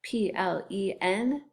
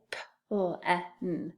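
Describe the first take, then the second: First: "P-L-E-N" as letter names pee, el, ee, en; name each letter of "P-L-E-N"; spelled out. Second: "P-L-E-N" softly and slowly as sounds p, l, short e, n; sounded out. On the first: Teacher spelling the first syllable, "P-L-E-N" in letter names. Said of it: "and then T". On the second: Teacher repeating the first syllable, "P-L-E-N" as isolated sounds. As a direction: tap out "P-L-E-N" sound by sound. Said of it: "First syllable". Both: Shown as a demonstration.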